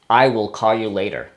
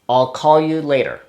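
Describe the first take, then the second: First: I will is said as two full words. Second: I will is contracted into one syllable. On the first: "the first part, I will" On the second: "Sometimes we use the, the contraction, I'll"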